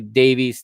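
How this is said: The name is pronounced the American way. "we in the U S say Davies"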